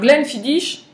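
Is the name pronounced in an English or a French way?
French. The name is pronounced the French way. The speaker is a novice. The speaker calls it wrong. "vous révélerez immédiatement que vous n'êtes qu'un novice"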